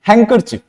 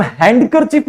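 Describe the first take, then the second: First: हैंकरचीफ said "hang-ker-chif", no D; silent D. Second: हैंडकरचीफ misread as "hand-ker-chief", D sounded; wrong reading with D. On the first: Teacher gives the right reading, silent D in हैंकरचीफ. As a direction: run the N straight into K in हैंकरचीफ. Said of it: "हम क्या पढ़ते हैं?". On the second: Teacher shows the wrong reading, D sounded in हैंडकरचीफ. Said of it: "इसको हम हैंडकरचीफ नहीं पढ़ते हैं". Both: Shown as a demonstration.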